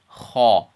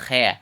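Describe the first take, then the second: First: A heavy, open 'aw' vowel follows the sound. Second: A light, thin 'eh' vowel follows the sound. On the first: The speaker calls it right. "We're gonna say ha because this letter is heavy" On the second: The speaker calls it wrong. "We're not gonna say he"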